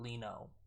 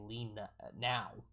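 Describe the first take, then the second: First: The last syllable sounds like 'no'. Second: The last syllable sounds like 'now'. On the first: The speaker calls it right. "not Lino" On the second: The speaker calls it wrong. "I was saying lean now, now, not Lino"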